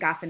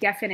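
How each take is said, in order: First: It is said in its end-of-clause form. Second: It is said in its ordinary form. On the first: The word ends a clause or sentence. "the pronunciation of the word geffen when it appears at the end of a clause" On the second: The word stands inside a clause. "Geffen is the actual word for a vine"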